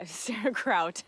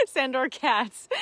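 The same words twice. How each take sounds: First: Sandor Kraut, slow, with a laugh, saying Kraut like sauerkraut; playful mispronunciation. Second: Sandor Katz, slow and higher, with the correct Katz; corrected name. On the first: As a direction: slowly say Kraut as a laughing slip of the name. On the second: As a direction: slowly correct it to Katz with a laugh. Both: Shown as a demonstration.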